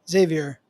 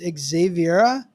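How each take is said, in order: First: The name ends without a final 'ah' sound. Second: The name ends with a final 'ah' sound. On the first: The speaker calls it wrong. "I'm saying that wrong" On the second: The speaker calls it right. "It's Xaviera"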